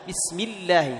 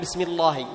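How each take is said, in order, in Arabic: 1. اللام في "Allah" مرقَّقة ونحيفة. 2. اللام في "Allah" مفخَّمة وممتلئة. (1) "سبقت بكسر" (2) "ما تقول بسم الله"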